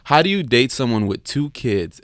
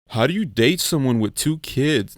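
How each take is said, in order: First: It is read in the speaker's normal voice. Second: It is read in a put-on, disguised voice.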